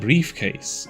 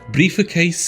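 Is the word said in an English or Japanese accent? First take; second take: English; Japanese. First: It is said in a plain English accent. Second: It is said in an exaggerated Japanese accent. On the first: The game does not understand it. The speaker calls it wrong. "saying briefcase is not enough" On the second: The game understands it. The speaker calls it right. "saying it in an offensive Japanese accent"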